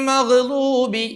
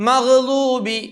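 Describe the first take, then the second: No difference in how they are said.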